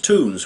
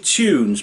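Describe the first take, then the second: First: It is said with an American 'toons' sound. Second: It is said with a British 'tyoons' sound. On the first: "Americans pronounce the word tunes tunes" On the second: "It's actually tunes"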